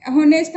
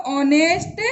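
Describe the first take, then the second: First: होनेस्ट opening with a clear h; sounded H. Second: ऑनेस्ट starting on the o vowel; corrected ऑनेस्ट, no h heard; silent H. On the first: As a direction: read the silent h aloud in होनेस्ट. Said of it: "हम इसको नहीं पढ़ेंगे". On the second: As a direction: leave the h out of ऑनेस्ट. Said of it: "पढ़ेंगे". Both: Shown as a demonstration.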